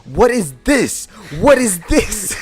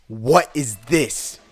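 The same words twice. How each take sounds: First: High, loud outraged yelling; outraged teacher. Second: Slow, louder demanding question; stern question. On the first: Teacher outraged at the second picture, high loud yelling. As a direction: shriek it twice, losing it. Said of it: "He's just like". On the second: Teacher showing the picture, demanding slowly and loudly. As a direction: press each word slowly. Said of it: "he just goes". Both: Retold or imitated.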